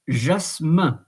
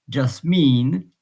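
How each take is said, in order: First: The word ends with a nasal French vowel. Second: The word ends with a plain English 'in' sound. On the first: "in French" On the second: "in English"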